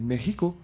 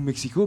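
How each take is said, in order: First: The name is pronounced the Latin American Spanish way. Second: The name is pronounced the French way. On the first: This is how it is said locally. The speaker calls it right. "mais c'est Mexico" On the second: This is how French speakers say it. The speaker calls it wrong. "Mais on dit nous Mexico"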